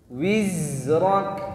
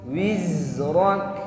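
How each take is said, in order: No difference in how they are said.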